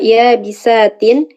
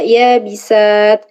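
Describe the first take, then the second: First: The word ends with a final -in sound. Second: The word ends on a bare t consonant. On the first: The word is joined to what follows. "ketika wasol dibaca ya bisatin" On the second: The reading stops on this word. "ketika wakof dibaca ya bisat"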